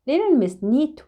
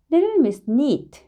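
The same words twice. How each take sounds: The two takes are said the same way.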